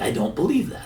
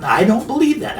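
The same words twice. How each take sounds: First: A softer, quieter I don't believe that; quiet repeat. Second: Said in the usual way. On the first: Shown as a demonstration. Investor doubting the Bitcoin forecast, quiet repeat.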